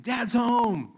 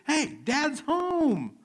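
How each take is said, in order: First: Put-on high, loud little-kid announcement; excited little one. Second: Put-on very high, loud, drawn-out kid yell; imitated child's scream. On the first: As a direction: imitate a small child running in to announce dad. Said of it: "my little one running and saying". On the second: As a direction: scream it slowly like a child calling the siblings. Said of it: "she will scream to the announcer".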